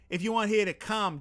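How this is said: It is spoken in a Boston accent. "Boston accent"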